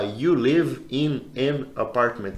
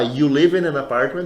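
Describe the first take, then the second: First: "You... live... in... an... apartment", slow; pausing between words. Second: "in an apartment" flowing as "inanapartment"; linked words. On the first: Teacher showing agonizing paused English, pausing each word. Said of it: "agonia de falar pausando". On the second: Teacher showing the easy connected way, words linked. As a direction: run "You live in an apartment" together. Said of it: "É mais fácil eu falar". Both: Shown as a demonstration.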